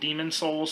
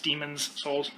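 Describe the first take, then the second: First: The first word ends without an s sound. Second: The first word ends with an s sound. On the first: The speaker calls it wrong. "just saying Demon Souls. Some people really hate that" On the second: The speaker calls it right. "It's Demons Souls"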